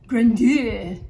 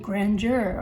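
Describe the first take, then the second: First: The word is pronounced with an odd, unusual twist. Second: The word is pronounced in a plain, ordinary way.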